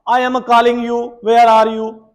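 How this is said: Every letter is stressed, with a Punjabi touch. "I am putting emphasis on every of the alphabet, which is making my English. Uh, you can say that there is a touch of Punjabi"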